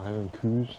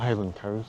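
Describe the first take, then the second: First: The last word's vowel sounds like 'oo' in 'too'. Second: The last word's vowel sounds like 'ow' in 'now'. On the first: The speaker calls it right. "they're Highland coos" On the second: The speaker calls it wrong. "They're not Highland cows"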